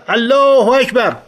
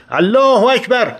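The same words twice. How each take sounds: First: High, loud and slow, الله stretched long; long rallying shout; drawn-out battle cry. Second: High shouted Allahu Akbar, الله hit hardest; charging battle cry behind Reza. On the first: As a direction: call الله اکبر out slowly and loud. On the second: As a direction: roar الله اکبر to rally the men. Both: Retold or imitated. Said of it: "فریاد زدم".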